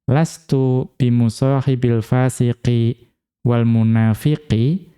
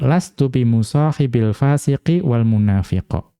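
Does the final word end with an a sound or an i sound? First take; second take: i sound; a sound. First: The last word ends with an i vowel. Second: The last word ends with an a vowel. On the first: It follows the preceding noun's surface genitive form. "boleh dibaca majrur" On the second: It follows the preceding noun's underlying object role. "Boleh juga dibaca nasab"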